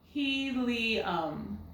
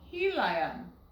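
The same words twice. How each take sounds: First: The middle vowel is an ee sound. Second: The middle vowel is a long I sound. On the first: The speaker calls it right. "This I is making the E sound" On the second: The speaker calls it wrong. "Let's try that long sound"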